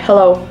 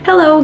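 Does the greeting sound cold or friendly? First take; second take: cold; friendly. First: The greeting sounds flat and cold. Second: The greeting sounds warm and friendly. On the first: The speaker calls it wrong. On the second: The speaker calls it right.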